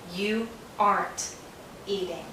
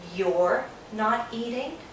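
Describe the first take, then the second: First: The word 'not' is shortened onto 'are'. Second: The word 'are' is shortened onto 'you'. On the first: "We take are, not, aren't" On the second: "Sometimes Americans say you're not eating"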